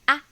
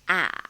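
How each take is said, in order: First: The syllable is said in the neutral tone. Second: The syllable is said in the third tone. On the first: "Neutral tone, the easiest" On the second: "Bridge tone"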